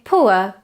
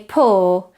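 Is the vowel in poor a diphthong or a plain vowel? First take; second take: diphthong; plain vowel. First: The vowel glides from u toward a schwa. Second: The vowel is a single or sound. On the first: "It starts at an u position and ends with a schwa" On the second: "just vowel or as in horse"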